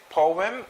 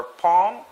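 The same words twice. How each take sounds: First: Poem as "POH-em"; two-syllable poem. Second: Poem squeezed into "pome", heard as palm; one-syllable poem. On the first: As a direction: say "poem" with OH, then a short em. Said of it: "What's the correct pronunciation". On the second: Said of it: "Is it poem or palm?". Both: Shown as a demonstration.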